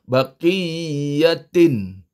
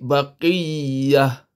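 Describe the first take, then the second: First: The word ends with a 'tin' sound. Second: The word ends with an 'h' sound. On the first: This is the full form of the word. "Asalnya baqiyatin" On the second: The reader stops at this word. "Tapi kita nak berhenti sini. Hilang bunyi tinnya"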